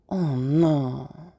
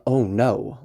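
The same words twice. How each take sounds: First: "Oh no" drawn out smoothly with no punch; not underlined. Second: "Oh no" quick and firmly stressed; underlined emphasis. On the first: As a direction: let "Oh no" glide by, barely reacting. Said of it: "we're not underlining that at all". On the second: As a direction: punch "Oh no" as a big reaction. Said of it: "where we're underlining the". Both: Shown as a demonstration.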